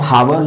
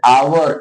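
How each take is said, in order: First: The word begins with an audible h sound. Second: The word begins with a vowel, no h. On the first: The speaker calls it wrong. "आप हावर जो पढ़ते हो ना, गलत है।" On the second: The speaker calls it right. "आवर एच silent होता है।"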